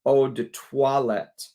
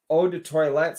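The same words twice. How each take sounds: First: Eau de toilette slowly, toilette as "twa-let"; slow corrected eau de toilette, toilette like twa-let; corrected French toilette. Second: Eau de toilette with toilette said "TOY-let"; Texas-style toilette. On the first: Shown as a demonstration. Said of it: "I should be saying farts, eau de toilette". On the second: Real, not acted. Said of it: "Someone told me I've been saying toilette wrong".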